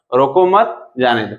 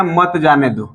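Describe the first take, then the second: First: रोको मत as one phrase, then जाने दो apart; pause after मत. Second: मत जाने दो run together as one phrase; comma before मत. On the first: Teacher showing the second meaning, pause between मत and जाने दो. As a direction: break after मत, not after रोको. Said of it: "कॉमा यहाँ पे लग गया और जाने दो". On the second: Teacher showing the first meaning, मत grouped with जाने दो. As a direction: keep मत joined to जाने दो, no break. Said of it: "comma लगा दिया". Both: Shown as a demonstration.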